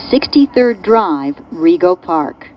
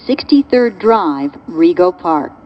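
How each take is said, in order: Both takes have the same delivery.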